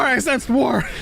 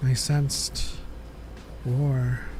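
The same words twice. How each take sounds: First: It is said forcefully, with lots of energy. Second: It is said flatly, with little energy.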